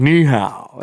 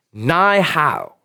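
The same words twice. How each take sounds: First: "Ni hao" with NI as "nee"; "Ni hao", first word rhyming with "knee"; corrected Chinese greeting. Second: "Ni hao" said with NI as "nigh"; botched "Ni hao", first word rhyming with "high"; mispronounced Chinese greeting. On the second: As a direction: say "Ni hao" wrongly, like "nigh how". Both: Retold or imitated. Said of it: "No, it's ni hao".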